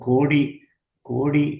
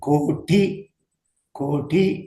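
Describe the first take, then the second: First: The middle consonant is a soft voiced d. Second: The middle consonant is a hard doubled t. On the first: The speaker calls it wrong. "நிறைய பேர் பேசும்போது கோடி கோடி அப்படின்னு படிப்பாங்க" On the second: The speaker calls it right. "கோட்டி கோட்டி அப்படின்னு எழுதணும்னா"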